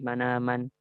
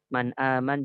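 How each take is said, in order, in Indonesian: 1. Huruf n berharakat, tanpa hentian glotal. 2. Huruf n bersukun, lalu hentian glotal.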